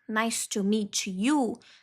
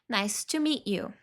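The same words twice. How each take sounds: First: The T in 'meet' is fully released. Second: The T in 'meet' is stopped, not released. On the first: The speaker calls it wrong. "em vez de falar nice to meet you, nice to meet you, não" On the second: The speaker calls it right. "o stop T, no meet ... para ficar mais natural"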